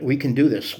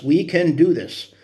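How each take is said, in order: First: Said in the usual way. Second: Rallying cry. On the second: Real, not acted. Repeated louder, slower for emphasis.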